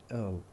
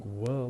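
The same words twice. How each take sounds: First: "ill" with the w of will dropped; weak form. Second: "will" louder, w sounded; full form. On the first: Teacher showing learners reduced auxiliaries, weak form. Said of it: "we say". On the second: Teacher contrasting strong and weak auxiliaries, full form. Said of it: "Instead of saying". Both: Shown as a demonstration.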